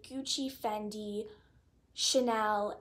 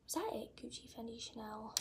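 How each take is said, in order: First: Said in the usual way. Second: Much softer, counting under her breath; quiet recount to herself; muttered recount. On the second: Real, not acted. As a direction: mutter the list to check it.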